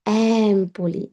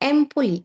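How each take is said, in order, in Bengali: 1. প্রথম স্বরধ্বনিটি একটি খোলা a-সদৃশ ধ্বনি। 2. প্রথম স্বরধ্বনিটি একটি বদ্ধ e ধ্বনি। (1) "এটার উচ্চারণ হচ্ছে অ্যাম্পলি" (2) "সেম ভাবে এম্পলি"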